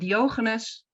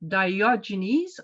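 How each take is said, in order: First: The name is pronounced the Dutch way. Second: The name is pronounced the English way. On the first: "In Dutch, we say" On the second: "I hope I say it right"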